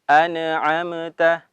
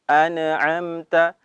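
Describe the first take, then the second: Both takes have the same delivery.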